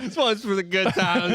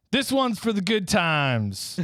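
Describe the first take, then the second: First: Higher toast. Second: Slow toast. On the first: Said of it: "he says". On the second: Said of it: "Rudolph says". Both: Shown as a demonstration.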